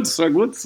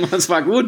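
First: Said in the usual way. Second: Laughing praise. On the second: Real, not acted. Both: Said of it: "Moses-Referenz".

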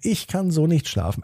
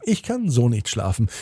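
First: Higher-pitched whine of protest; higher-voiced sibling grumble; complaining child. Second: Put-on echoing child's complaint. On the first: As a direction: complain as the first twin, higher. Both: A narrator's reading. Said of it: "die Diskussion geht wieder los".

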